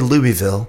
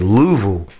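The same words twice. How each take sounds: First: It uses the pronunciation outsiders use. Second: It uses the pronunciation locals use. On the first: The speaker calls it wrong. "You don't say Louisville if you're from that part of the world" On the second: The speaker calls it right. "You say Louisville"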